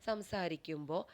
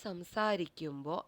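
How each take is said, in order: No difference in how they are said.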